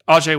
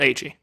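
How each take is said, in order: First: The name ends with an 'ay' vowel sound. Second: The name ends with an 'ee' vowel sound. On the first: The speaker calls it right. "Ajay Wilson" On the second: The speaker calls it wrong. "not A G"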